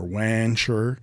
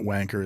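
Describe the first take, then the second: First: The middle consonant is a ch sound. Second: The middle consonant is a hard k sound. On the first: "It's like rancher" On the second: "it's not wanker"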